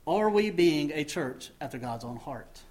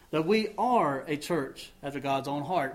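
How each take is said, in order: First: Rising question tune at the end; asked as a question. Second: Falling statement tune, stress on are; stated as fact. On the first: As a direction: ask it as a real, open question. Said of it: "we could end that phrase with a question mark". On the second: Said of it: "we can put a period at the end of that". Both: Shown as a demonstration.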